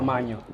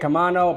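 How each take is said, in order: First: The middle consonant is a palatal ny sound. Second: The middle consonant is a plain n sound. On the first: "they use the ñ, a little line over the end" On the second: "So just say Camano"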